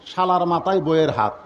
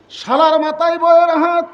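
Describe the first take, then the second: First: Said in the usual way. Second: "শালার মাথায় বইয়ের হাত" called out high and loud; loud punchline. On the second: Shown as a demonstration. ("শালার মাথায় বইয়ের হাত" উঁচু ও জোরে বলা) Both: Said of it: "repeated line".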